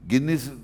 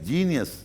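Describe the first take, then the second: First: The word begins with a hard G sound. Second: The word begins with a J sound. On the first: The speaker calls it wrong. "گینیس نہیں" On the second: The speaker calls it right. "جینیس جے والا"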